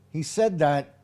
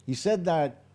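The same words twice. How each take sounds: The two takes are said the same way.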